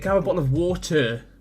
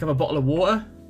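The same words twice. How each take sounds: First: The t in water is clearly pronounced. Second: The t in water is dropped entirely. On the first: "He wasn't saying" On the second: "He just doesn't pronounce the T"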